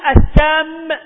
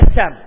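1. الميم الأخيرة مشددة. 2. الميم الأخيرة مفردة. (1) "يجعلها سم فيجعل جذرها سمم" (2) "والصواب أن جذرها سوم"

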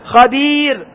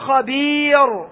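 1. الراء الأخيرة مرققة ورقيقة. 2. الراء الأخيرة مفخمة وغليظة. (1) "ما قبلها ياء سواء المادية وغير المادية ترقق" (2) "فلا تقول خبير، خطأ"

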